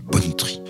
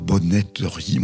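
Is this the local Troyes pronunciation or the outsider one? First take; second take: local; outsider. First: It is pronounced the way locals say it. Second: It is pronounced the way outsiders say it. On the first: Marks the speaker as a local. The speaker calls it right. "on dit bonneterie" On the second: Marks the speaker as an outsider. The speaker calls it wrong. "on ne dit pas bonneterie"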